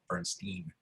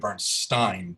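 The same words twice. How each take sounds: First: The last syllable sounds like 'steen'. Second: The last syllable sounds like 'stine'. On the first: This is how the speaker's family pronounces it. "my family has always pronounced it Bernstein" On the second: This is how the name is usually pronounced. "the pronunciation should be Bernstein"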